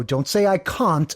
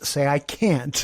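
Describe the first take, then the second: First: Can't said as "cahnt" with a long broad ah, slowly; wrong vowel in can't. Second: Can't said with a flat American a, as in "cant"; corrected vowel. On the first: Teacher quoting the student's wrong "cahnt" pronunciation. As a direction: stretch out can't as "cahnt" with an open ah. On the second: Teacher giving the corrected flat-a can't. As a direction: give can't the short flat a of "ant". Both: Retold or imitated. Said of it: "coach him to get his dialect right".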